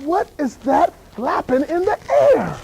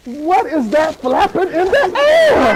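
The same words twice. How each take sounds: First: Slow puzzled wonder. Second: Slow, higher puzzled question; slow, half-laughing wonder. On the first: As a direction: wonder aloud in slow motion. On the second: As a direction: slowly wonder through a laugh. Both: Retold or imitated. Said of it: "I'm like".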